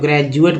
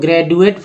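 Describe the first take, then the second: First: The middle consonant is a j sound. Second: The middle consonant is a hard retroflex d. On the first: "ज पढ़ते हैं" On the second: "अगर ड पढ़ते हैं"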